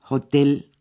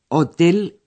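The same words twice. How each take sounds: First: The word is pronounced the German way. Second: The word is pronounced the Spanish way. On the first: "Hotel en alemán" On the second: "Hotel en español"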